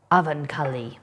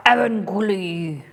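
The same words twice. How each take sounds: First: Said in the usual way. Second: Avancully drawn out slowly as EH-vun-koo-lee with a put-on foreign accent; slow, theatrical accented Avancully. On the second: Shown as a demonstration. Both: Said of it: "what accent I should put on".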